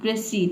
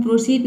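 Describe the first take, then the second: First: प्रोसीड said "pre-seed", short "e" in the first syllable; unrounded first vowel in प्रोसीड, like "pre"; corrected pronunciation. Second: प्रोसीड with an "o" in the first syllable, "pro-seed"; mistaken pronunciation. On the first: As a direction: model प्रोसीड as "pruh-SEED", no "o" sound. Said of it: "इसको पढ़ना है आपको". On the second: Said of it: "student गलत pronounce करते हैं". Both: Shown as a demonstration.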